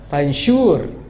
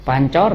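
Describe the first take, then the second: First: The middle consonant is an 'sh' sound. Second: The middle consonant is a 'ch' sound.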